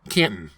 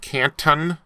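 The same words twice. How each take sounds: First: The t sound is swallowed, not released. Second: The t sound is clearly released.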